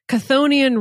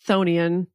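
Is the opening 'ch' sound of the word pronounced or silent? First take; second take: pronounced; silent. First: The opening ch sound is pronounced. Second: The opening ch sound is silent. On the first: The speaker calls it wrong. "I'm just going to say it how it looks" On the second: The speaker calls it right. "The CH is silent"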